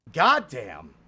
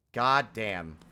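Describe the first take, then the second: First: Goddamn said loud, rising then falling; a loud, amazed goddamn; real thrill on goddamn; excited goddamn. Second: Said in the usual way. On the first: Real, not acted. After clutching a boss kill.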